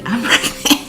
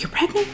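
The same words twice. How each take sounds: First: High-pitched, laughing confirmation; excited announcement. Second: Very high-pitched, incredulous asking; astonished question. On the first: Wife telling her husband she is pregnant, excited and laughing. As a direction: burst out with the news, half laughing. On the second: Husband learning of the pregnancy from his wife, astonished question. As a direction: squeak it out in mock disbelief. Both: Retold or imitated.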